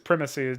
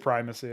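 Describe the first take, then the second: First: The first syllable sounds like 'prim'. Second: The first syllable sounds like 'prime'. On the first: The speaker calls it wrong. "just sounds prim and proper. It sounds stupid" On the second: The speaker calls it right. "That's the better way"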